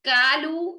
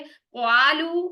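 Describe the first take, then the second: First: The first vowel is a thin 'a' sound. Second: A 'w' glide comes before a thin 'a'. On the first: "कालू ये भी गलत है" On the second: "क्वालू ये भी गलत है"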